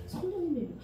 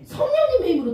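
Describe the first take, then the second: First: 성령님의 힘으로 repeated much softer, settling it; soft restatement. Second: 성령님의 힘으로 called out much higher and loud; emphatic answer. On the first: Pastor repeating to the children, softly and firmly. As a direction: drop 성령님의 힘으로 to a quiet, firm close. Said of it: "나의 힘으로는 어려워". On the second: Pastor answering the children, proclaiming it high and loud. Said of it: "누구의 힘으로?". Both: Shown as a demonstration.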